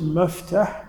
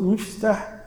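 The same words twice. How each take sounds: First: مفتح said meftaħ with open fatha on the mim; open first vowel. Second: مفتح said miftaħ with kasra on the mim. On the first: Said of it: "فأنت تريد الغرفة المستودع". (مفتح بفتح الميم) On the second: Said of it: "الكسر مفتح تريد الآلة المفتاح". (مفتح بكسر الميم) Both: Shown as a demonstration.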